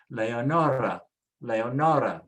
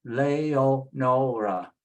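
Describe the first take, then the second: First: Leonora as one word, leh-oh-NOR-ah; joined up. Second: Leonora slowly as leh-oh-NOH-rah; sounded out slowly. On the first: Teacher repeats the name for learners, whole word joined. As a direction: say Leonora smoothly with no breaks. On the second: Teacher builds the name from its vowels, slow syllables. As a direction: draw out every syllable of Leonora. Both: Shown as a demonstration.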